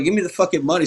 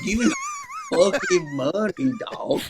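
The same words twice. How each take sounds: First: Retold angry demand, pitched up; mock-annoyed, higher insistent demand; getting pissed. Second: Very high, strained, drawn-out demand; hammed-up wailing robbery demand; mock robber. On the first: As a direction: act out losing patience with a cashier. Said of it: "So I'm getting pissed". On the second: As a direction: act like a desperate stick-up man, slowly. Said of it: "now I sound like I'm robbing this place".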